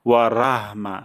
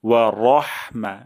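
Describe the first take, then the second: First: The r is light and the vowel after it is open. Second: The r is heavy and the vowel after it is dark. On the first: The speaker calls it wrong. "ভুলটি হলো ওয়া রাহমা" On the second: The speaker calls it right. "র মোটা করে"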